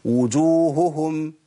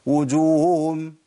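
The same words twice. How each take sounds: First: وجوههم with both haa sounds clear and slow; careful Quranic reading of وجوههم; correct haa sounds. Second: وجوههم squeezed to wujum, both haa lost; deliberate wrong reading of وجوههم; dropped haa sounds. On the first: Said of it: "ده الصح". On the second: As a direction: say وجوههم swallowing the two haa. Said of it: "طب الخطأ". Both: Shown as a demonstration.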